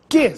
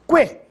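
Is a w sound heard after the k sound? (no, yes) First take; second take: no; yes. First: The u is silent, with no w sound. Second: The u is voiced as a w sound. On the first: "Você notou se eu pronunciei a letra U? Não" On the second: "Agora sim, você ouviu o som da letra U"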